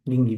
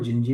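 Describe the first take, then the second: First: The name begins with a hard G sound. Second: The name begins with a J sound. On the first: This follows the official spelling. "गिंगी भी बोलते हैं" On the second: This is how local people say it. "इसको जिंजी भी बोलते हैं"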